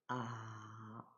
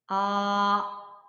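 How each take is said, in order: First: The pitch dips low and then rises. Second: The pitch stays high and level. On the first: "삼 성" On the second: "일 성부터 사 성까지 차례대로"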